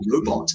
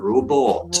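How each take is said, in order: First: It is said in a standard English accent. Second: It is said in a Scottish accent, vowel lengthened. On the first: "turns robot" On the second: "into robot. Elongation there"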